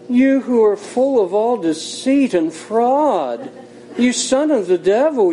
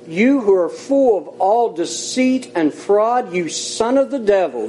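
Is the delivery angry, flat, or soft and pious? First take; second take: soft and pious; angry. First: It is said softly, in a gentle pious tone. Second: It is said forcefully, with strong emotion. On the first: The speaker is putting on a religious manner. "he could have said it very spiritually" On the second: The speaker is rebuking someone in earnest. "I read it the way I think Paul said it"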